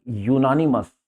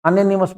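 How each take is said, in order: First: यूनानिमस begun with a "yu" glide; YU opening. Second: अनोनिमस begun on a short "a", no "yu"; wrong vowel opening. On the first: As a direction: say यूनानिमस as "yoo-NAN-imus". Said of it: "अनोनिमस मत पढ़ना है". (यूनानिमस, "यू" से शुरू) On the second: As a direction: misread it as अनोनिमस, "a-NON-imus". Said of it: "मत पढ़ना है इसको". (अनोनिमस, "अ" से शुरू गलत उच्चारण) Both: Shown as a demonstration.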